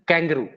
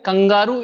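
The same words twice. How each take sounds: First: It is said with an English pronunciation. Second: It is said with a Hindi pronunciation. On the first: "in English we use it kangaroo" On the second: "we pronunciate it like kangaroo in Hindi"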